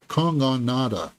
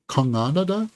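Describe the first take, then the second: First: Kongonada with a falling, final tune; settled name attempt. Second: Kongonada with a questioning rise at the end; unsure pronunciation. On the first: Reviewer settling on the director's name, "Kongonada" falling at the end. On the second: Reviewer retrying the director's name, "Kongonada" rising in doubt. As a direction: try out "Kongonada" as if asking. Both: Real, not acted. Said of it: "I'm sorry if I butchered that name".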